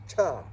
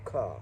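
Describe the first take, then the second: First: It begins with a ch sound. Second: It begins with a k sound. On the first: This is the other way of saying the name. "the other race is Cha" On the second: This is the speaker's preferred, Chaldean way of saying it. "but I prefer Ka"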